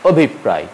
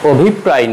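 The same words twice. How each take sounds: First: অভিপ্রায় said the right way, falling at the end; অভিপ্রায় clearly and correctly pronounced; correct pronunciation. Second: অভিপ্রায় said the mistaken way; অভিপ্রায় as learners often mispronounce it; wrong pronunciation. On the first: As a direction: model অভিপ্রায় for students. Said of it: "উচ্চারণ হবে". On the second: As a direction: read অভিপ্রায় the naive way as spelt. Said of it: "নয়". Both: Shown as a demonstration.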